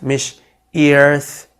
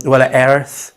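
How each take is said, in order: First: Earth said as eerth, a wrong ee vowel. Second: Earth with a full er vowel; right earth. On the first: Teacher showing learners the wrong earth. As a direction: say earth with an ee before the r. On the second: Teacher showing learners the right earth. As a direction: say earth as urth, er sound clear. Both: Shown as a demonstration.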